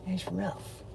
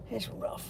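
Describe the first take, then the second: First: Said in the usual way. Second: Breathy whispered repeat of It's; whispered echo. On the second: Shown as a demonstration. To himself, echoing his own words in a whisper.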